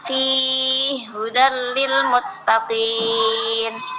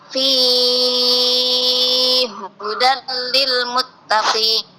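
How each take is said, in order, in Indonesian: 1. Vokal gabungan itu dipanjangkan empat harakat. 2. Vokal gabungan itu dipanjangkan enam harakat. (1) "yang tawassut" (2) "Yang ketiga tul"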